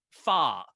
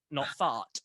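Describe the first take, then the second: First: Fart said with no T, louder; dropped T. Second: Fart said with the final T sounded; T pronounced. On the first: Showing how he says fart, dropping the final T. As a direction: fart clipped as "far". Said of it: "I don't say my T's". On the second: Showing the posh fart he does not use, final T sounded. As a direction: fart with a crisp T at the end. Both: Shown as a demonstration.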